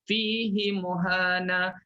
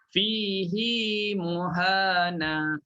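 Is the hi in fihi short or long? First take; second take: short; long. First: The hi syllable is short. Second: The hi syllable is lengthened. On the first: This is another reading tradition's version. "dia baca tanpa silah" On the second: This is one reading tradition's version. "Hafs baca silah"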